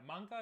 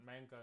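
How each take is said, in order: First: MANGA with an open AH, "mahng-gah"; Japanese pronunciation. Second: Said in the usual way. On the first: Shown as a demonstration. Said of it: "is the right way in Japanese". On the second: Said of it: "like, English".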